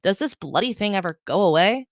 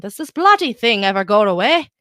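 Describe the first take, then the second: First: Said in the usual way. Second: Put-on louder, playful stab at an Irish accent; a hint of hammed-up Irish accent. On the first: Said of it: "that accent". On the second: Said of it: "That's Irish".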